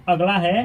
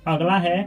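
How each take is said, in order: No difference in how they are said.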